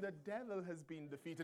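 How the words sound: It is said in a cute, timid way.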